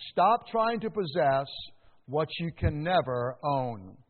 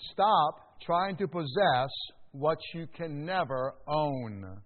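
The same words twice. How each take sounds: First: Said in the usual way. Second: Slow, weighty, every word laid down; slow emphatic repeat. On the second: Shown as a demonstration. Preacher repeating his point slowly so the church takes notes. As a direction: let it sink in, slowly. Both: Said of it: "repeated for emphasis".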